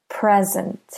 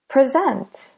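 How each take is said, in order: First: "Present" as the noun, PREZ-ent; stress on first syllable. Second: "Present" as the verb, pre-ZENT, higher; stress on second syllable. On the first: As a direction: say "Present" with the beat on PRE. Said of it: "stress the first syllable in present". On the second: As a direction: punch SENT in "Present", first syllable light. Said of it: "If we stress the second syllable". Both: Shown as a demonstration.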